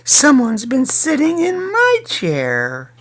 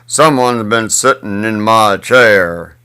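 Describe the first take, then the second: First: It is said in a medium-sized voice. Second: It is said in a very big voice. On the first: "said in her mid-sized voice" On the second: "said in his great big voice"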